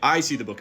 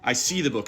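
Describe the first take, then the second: First: The stress falls on the word I. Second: The stress falls on the word see. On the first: It is me, not someone else, who sees it. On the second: I see it rather than sensing it another way. "I don't smell it"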